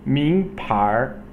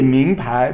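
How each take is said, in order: First: The second syllable ends with an r-sound. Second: The second syllable ends without an r-sound. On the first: "would be the arhua" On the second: "it's really ming pai"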